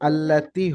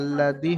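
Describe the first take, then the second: First: The consonant before the last vowel is a t. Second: The consonant before the last vowel is a d. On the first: The speaker calls it right. "আল্লাতি হবে" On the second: The speaker calls it wrong. "আল্লাতির জায়গায় আল্লাদি হয়ে যাচ্ছে অনেকের"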